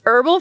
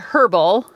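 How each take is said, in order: First: The word begins with a vowel, H silent. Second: The word begins with an audible H sound. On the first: The speaker calls it right. "but it's" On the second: The speaker calls it wrong. "I always want to say the H in herbal. I'm always tempted to say"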